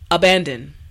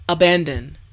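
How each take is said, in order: The two takes are said the same way.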